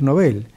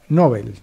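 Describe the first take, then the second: First: The stress is on the last syllable. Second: The stress is on the first syllable. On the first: This is how the name sounds in Sweden. The speaker calls it right. "Más correcto es decir Nobel" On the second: This is the common local way of saying it. The speaker calls it wrong. "como si tuviera acento en la O"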